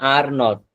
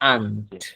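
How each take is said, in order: First: It is split into two separate words. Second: It is run together as one word. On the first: The speaker calls it wrong. "দুইটা শব্দে বলছেন ভেঙে ভেঙে" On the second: The speaker calls it right. "আপনি একবারে বলবেন"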